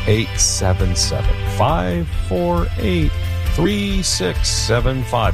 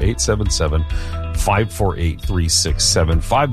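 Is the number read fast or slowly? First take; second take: slowly; fast. First: The number is read at a slower pace. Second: The number is read at a quick pace.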